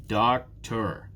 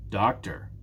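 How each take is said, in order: First: Doctor in two separate beats, Doc, tor; syllable by syllable. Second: Said in the usual way. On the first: Shown as a demonstration. Teacher confirming there are two syllables, "Doctor" split in two. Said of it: "there are two". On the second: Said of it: "How many syllables?".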